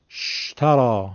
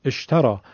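First: شترا begun straight on a hissed sh, no vowel before it; vowelless shin start. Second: اشترا begun with a short vowel before the sh; hamza start. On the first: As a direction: say شترا as 'shtarā', opening on the bare consonant. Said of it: "با خود شین نمیشه شروع کرد". (شترا با شین ساکن در آغاز، بدون همزه) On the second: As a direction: say اشترا as 'eshtarā', opening on the hamza. (اشترا با همزهٔ مکسور در آغاز) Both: Shown as a demonstration.

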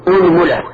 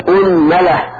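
First: أنملة said "unmula", u on hamza and meem; damma on both. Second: أنملة said "unmala", opening on u; damma on hamza. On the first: Teacher listing forms, أنملة as "unmula". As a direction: say أنملة with u on both first vowels. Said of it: "وضمها". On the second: Teacher showing damma then fatha, أنملة as "unmala". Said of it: "ضم الهمزة وفتح الميم". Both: Shown as a demonstration.

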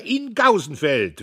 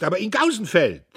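First: Slower, loud, stress on "in"; "in" punched, "Gausenfeld" falling; emphatic repeat. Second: Loud, high, stress on "Gausenfeld"; "Gausenfeld" hit hard and falling; loud orator. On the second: Diederich harangues. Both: A narrator's reading.

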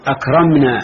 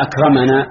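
First: أكرمنا with closed mim, "akramnaa"; sukun on mim. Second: أكرمنا with open mim, "akramanaa"; fatha on mim. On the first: Teacher prompting students for the ending, أكرمنا with silent mim. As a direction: say أكرمنا as "ak-ram-naa", no vowel after mim. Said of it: "على السكون؟". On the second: Teacher prompting students for the ending, أكرمنا with fatha on mim. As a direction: say أكرمنا as "ak-ra-ma-naa". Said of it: "في أكرمنا على الفتح". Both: Shown as a demonstration.

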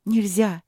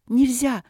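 First: First firm no, held back; a worried, stern forbidding; angry, alarmed warning. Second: Higher, sharper repeat of нельзя; the second нельзя flung out as an alarmed shout; angry, alarmed cry. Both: Acted. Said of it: "сердитая и очень встревоженная Василина".

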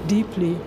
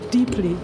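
No difference in how they are said.

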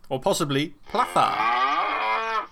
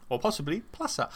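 First: Plaza with a lisped th, slow; lisped Spanish plaza. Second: "plaza" with a clear s sound, quiet. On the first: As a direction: say "plaza" as "platha", drawn out. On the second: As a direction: say "plaza" with plain s. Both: Shown as a demonstration.

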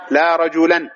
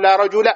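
First: "رجلا" ending in -an, rajulan; tanwin ending. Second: "رجل" ending in bare -a, rajula; "رجل" with fatha, no tanwin; single fatha. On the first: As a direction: sound the n at the end of "رجلا". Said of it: "لو كان معربا". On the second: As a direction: say "رجل" with final a and no n. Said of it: "بفتحة واحدة يعني". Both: Shown as a demonstration.

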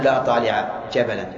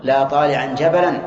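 First: "لا طالع جبلا" with طالع cut short, no -an ending; teacher shows the forbidden form, طالع without nunation; wrong form. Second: "لا طالعا جبلا" with طالعا ending in a clear -an; teacher gives the right form, طالعا said with nunation; correct case ending. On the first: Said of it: "ممنوع". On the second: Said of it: "ولا يصح نقول". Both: Shown as a demonstration.

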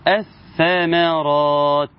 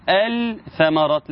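First: Slow "الثمرات" as ath-thamaraat, no L; assimilated lam. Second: "الثمرات" with the L sounded, al-thamaraat; unassimilated lam. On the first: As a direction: double the ث in "الثمرات" and drop the lam. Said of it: "العرب قالوا إيه؟". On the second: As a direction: say a held L in "الثمرات", then a single ث. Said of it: "ما نقولش إيه؟". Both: Shown as a demonstration.

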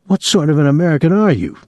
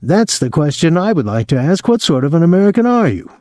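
First: Higher, brisk, mock-patriotic challenge; rising patriotic indignation. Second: High, quick righteous goading; mock outrage. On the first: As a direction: ask it with a swell of patriotic outrage. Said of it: "his voice rising patriotically". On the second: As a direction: echo the challenge, pitched higher and higher. Friend echoes the patriotic taunt. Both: A narrator's reading.

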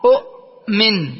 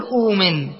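First: أؤمن in two pieces, short u stopped by a hamza; original two-hamza form. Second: أؤمن said as uumin, long uu with no glottal stop; hamza turned waw. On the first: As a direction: halt hard on the second hamza of أؤمن, then finish slowly. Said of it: "فالثانية ساكنة والأولى مضمومة". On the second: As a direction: glide through أؤمن on a long first vowel. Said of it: "أبدل الثانية واوا". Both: Shown as a demonstration.

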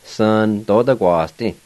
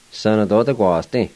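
First: Sana clipped to Sun, the A and N left silent, Sun tota kwa sti; shortened form. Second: Sana tota kwa sti with the A and N of Sana clearly sounded; full form. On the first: Teacher showing how most people say Sun tota kwa sti. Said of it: "They'll say it like this". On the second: Teacher giving the full form Sana tota kwa sti to students. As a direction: say every syllable of Sana, sa-na. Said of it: "you can leave that silent if you want to". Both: Shown as a demonstration.

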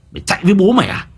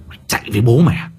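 First: Higher, louder threatening yell; higher shouted taunt. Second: Quick sneering threat; fast angry taunt. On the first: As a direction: raise it into a shout. Repeated taunt, second take. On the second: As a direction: bark it out fast. Repeated taunt, first take. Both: Acted.

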